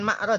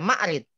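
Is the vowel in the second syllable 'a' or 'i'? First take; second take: a; i. First: The second syllable has the vowel 'a'. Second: The second syllable has the vowel 'i'. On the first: The speaker calls it wrong. "Bukan ma'rad ya" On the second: The speaker calls it right.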